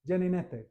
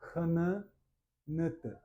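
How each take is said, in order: First: It starts with a 'j' sound. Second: It starts with an 'h' sound. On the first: The speaker calls it wrong. "he would pronounce that Gene, Geninete" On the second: The speaker calls it right. "we know that J is ha"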